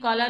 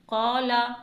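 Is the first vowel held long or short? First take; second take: short; long. First: The first vowel is said short, unstretched. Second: The first vowel is stretched out longer. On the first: The speaker calls it wrong. "जेर ज़बर पेश की तरह नहीं, कौला नहीं पढ़ेंगे" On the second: The speaker calls it right. "एक हरकत के बराबर खींच कर पढ़ेंगे"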